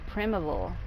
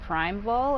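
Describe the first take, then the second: First: The first syllable sounds like prim. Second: The first syllable sounds like prime. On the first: "say prim and then avol" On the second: "say the word prime and then vol"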